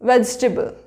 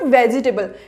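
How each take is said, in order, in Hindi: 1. दूसरे अक्षर का 'e' स्वर छोड़ दिया जाता है। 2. दूसरे अक्षर का 'e' स्वर बोला जाता है। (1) "हमारा ई जो होता है उसका साउंड नहीं आता" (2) "बट वेजिटेबल रॉन्ग है। It's not वेजिटेबल"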